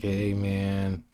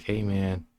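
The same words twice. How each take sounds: First: Lightly put-on dude greeting; a casual, mildly voiced hey man; a hint of a laid-back dude. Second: Repeating the mildly put-on dude greeting; slightly voiced laid-back hey man; a touch of a chill dude voice.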